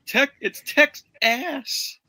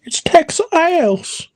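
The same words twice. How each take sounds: First: High, slow goofy drawl; mock slow goofy voice. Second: High, slow silly drawl; slow goofy voice. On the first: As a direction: stretch it out in a silly high voice. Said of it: "the guy's like". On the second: Retold or imitated. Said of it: "repeats the quote".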